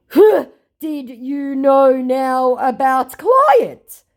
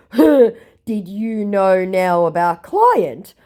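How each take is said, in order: First: Very slow, high and louder, put-on accent; mock scammer voice. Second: Slow, a little higher put-on accent; mock scammer voice. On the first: Quoting the worried scammer, slow and put-on. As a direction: draw it out, suspicious and dim. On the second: Repeating the scammer's question, slow and put-on. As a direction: drawl it warily. Quoted again.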